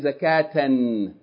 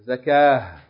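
First: The word ends with a t and n sound. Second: The word ends with a soft h sound. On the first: Reading continues past the word. "If you keep reading, you pronounce it like regular Tanween" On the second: Reading stops on the word. "if you stop on it, you're going to say"

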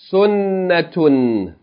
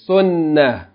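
First: The word ends with a t-sound and -un. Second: The word ends in a with no t-sound. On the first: The reading continues on without stopping. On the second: The reader stops on this word.

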